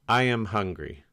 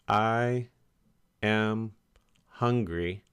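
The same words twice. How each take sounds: First: The words flow together without pauses. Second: Each word is said separately with pauses. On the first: The speaker calls it right. "Put those words together" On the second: The speaker calls it wrong. "Don't think"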